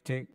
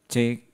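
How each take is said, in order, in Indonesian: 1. Suaranya kering, tanpa efek tambahan. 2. Suaranya memakai efek vokal. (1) "kalau saya matikan" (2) "kalau saya nyalakan"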